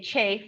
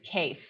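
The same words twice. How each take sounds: First: CHAFE starting with a ch; "chafe", Harub style with a ch; dialect ch form. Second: Said in the usual way. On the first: Shown as a demonstration. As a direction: say "chafe" with ch in place of k. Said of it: "they say chafe instead of kafe". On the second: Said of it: "instead of kafe".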